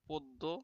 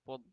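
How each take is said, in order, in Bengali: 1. শব্দটি স্পষ্ট 'o' স্বর দিয়ে শেষ হয়। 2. শেষ স্বরটি স্পষ্ট উচ্চারিত হচ্ছে না। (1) "ওকার উচ্চারণ করতে হবে" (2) "পদ্য না"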